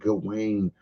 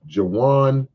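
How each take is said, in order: First: The last part is said like 'wain'. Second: The last part is said like 'wan'. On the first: The speaker calls it wrong. "I always hear Gawain" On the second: The speaker calls it right. "I won't mispronounce it no more"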